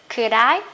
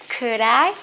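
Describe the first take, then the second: No difference in how they are said.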